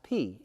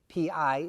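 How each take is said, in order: First: The vowel sounds like the word 'pee'. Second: The vowel sounds like the word 'pie'. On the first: The speaker calls it right. "They would pronounce it p" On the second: The speaker calls it wrong. "we say the number pi incorrectly"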